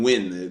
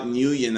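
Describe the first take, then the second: First: The name is said like 'win'. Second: The name is said like 'new-yen'. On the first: The speaker calls it right. "It's Stephen Wynn" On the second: The speaker calls it wrong. "It's not Nguyen as I thought it was"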